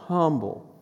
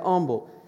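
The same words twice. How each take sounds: First: The word begins with a pronounced h sound. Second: The word begins with a vowel, h silent. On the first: "I'll say whatever you want me to say" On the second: "but I say humble"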